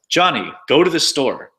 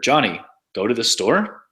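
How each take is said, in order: First: The intonation makes it sound like a command. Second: The intonation makes it sound like a question. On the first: It orders someone to act. "there's commands like" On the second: It asks whether this happened. "There's questions like"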